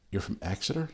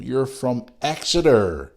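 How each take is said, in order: First: "Exeter" rising as a question, soft; quiet double-check of "Exeter" with a rise. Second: Said in the usual way. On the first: Real, not acted. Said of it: "Yes, you are".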